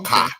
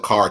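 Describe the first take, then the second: First: The word ends on a vowel with no R. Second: The word ends with a clear R sound.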